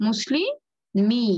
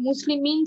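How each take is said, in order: First: মুসলিমি as "muslii... mii", no n; noon dropped. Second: মুসলিমিন with the final n kept; original noon ending. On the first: Teacher shows how to say it now, noon dropped. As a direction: stretch মুসলিমি slowly to an open i. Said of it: "আমরা এখন কি বলবো?". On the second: Teacher cites how it was, noon pronounced. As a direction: say মুসলিমিন closing on "-min". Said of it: "তারপরে মুসলিমিন ছিল". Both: Shown as a demonstration.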